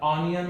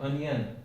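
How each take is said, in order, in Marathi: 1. पहिला स्वर हा उघडा 'aw' आवाज आहे. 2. पहिला स्वर हा लहान 'uh' आवाज आहे. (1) "इथं याला ऑनियन म्हणतात काही जण" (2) "अनियन हा खरा शब्द आहे"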